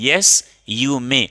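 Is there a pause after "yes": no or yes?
yes. There is a short pause after "yes". The speaker calls it right. "Comma के बाद आधे से एक सेकंड तक आप रुकेंगे"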